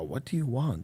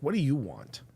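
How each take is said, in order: First: It is said in a mild, casual tone. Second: It is said in a sharp, insistent tone.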